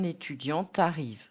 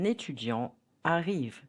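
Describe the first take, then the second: First: A t sound links the two words together. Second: The two words are said without a linking sound. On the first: The speaker calls it wrong. "Do not say" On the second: The speaker calls it right. "Nos liaisons between étudiant and arrive"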